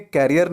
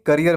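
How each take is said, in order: First: "करियर" said like carrier; wrong pronunciation. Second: "करियर" with short kuh first; correct pronunciation. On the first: Teacher names what not to build, "carrier" sound. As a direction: say "करियर" with open first vowel, CARE-ee-er. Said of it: "करियर नहीं". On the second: Teacher gives the right word to build, "kuh-ree-er". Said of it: "करियर बनाना है". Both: Shown as a demonstration.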